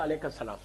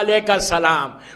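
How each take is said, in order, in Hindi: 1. यह ठंडे लहजे में, मुँह फेरकर, बिना गर्मजोशी के कहा गया है। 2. यह गर्मजोशी से, सुनाई देने वाली मुस्कान के साथ कहा गया है। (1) "यूं मुंह मुंह फेर के नहीं कहा" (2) "मुस्कुरा के स्माइल दे के कहा"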